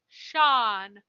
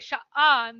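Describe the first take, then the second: First: The word runs together without a glottal stop. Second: A glottal stop breaks the word in two. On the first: This is the recited form that keeps the rhyme. "they say shan so that it continues to ride, rhyme" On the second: This is the written form with the hamza. "they don't say sha'an"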